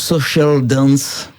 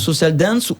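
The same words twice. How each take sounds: First: The name is pronounced with English sounds. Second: The name is pronounced with French sounds.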